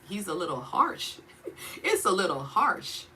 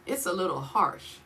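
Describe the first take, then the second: First: Laughing. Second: Said in the usual way. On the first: Real, not acted. Half-laughing understatement about God.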